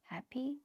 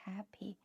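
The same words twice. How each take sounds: First: The first syllable rises in pitch. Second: The first syllable is high and level. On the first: "the ha become a second tone, p become a first tone" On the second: "the first syllable ha is a first tone. Pi is like a neutral tone"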